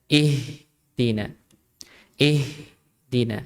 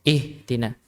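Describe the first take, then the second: First: "Ihdina" slow, breath streaming through the h; flowing h. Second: "Ihdina" with the h clipped short; cut-off h. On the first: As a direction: draw out the h in "Ihdina" before "dina". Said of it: "Tapi dia dialirkan". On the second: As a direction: say "Ihdina" breaking off the h before "dina". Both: Shown as a demonstration.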